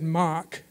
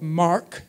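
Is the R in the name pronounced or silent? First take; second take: silent; pronounced. First: The R in the name is silent. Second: The R in the name is clearly pronounced.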